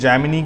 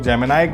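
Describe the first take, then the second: First: The word ends with an 'ee' sound. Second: The word ends with an 'eye' sound. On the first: "जैमिनी करते हैं कुछ लोग" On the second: "कुछ लोग जैमिनाई करते हैं"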